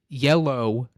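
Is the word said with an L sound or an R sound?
L sound. It is said with a clear L sound. The speaker calls it right.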